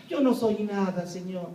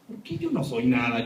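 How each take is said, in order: First: A lightly voiced meek servant, head bowed; mock the submissive, humble plea. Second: Said in the usual way. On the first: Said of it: "soy enemigo de la palabra humildad".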